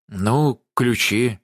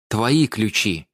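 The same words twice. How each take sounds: First: Feeble, hesitant bleat. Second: Rapped, slow, firmly measured "Твои ключи"; rapped, hammer out "Твои ключи" word by word, deliberately. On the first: Владимир evasively answers about the keys, bleating. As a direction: bleat it weakly, stalling. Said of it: "блеющим голосом". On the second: Даша pins the keys on Владимир, "Твои ключи" rapped out deliberately. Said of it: "отчеканила Даша". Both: A narrator's reading.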